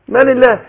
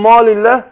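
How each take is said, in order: First: The long 'a' sounds light and thin. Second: The long 'a' sounds heavy and full. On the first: The speaker calls it right. "يبقى انا رققت الالف عشان ايه؟ عشان الميم مرققة" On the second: The speaker calls it wrong. "ينفع اقول واتوهم من مال الله؟"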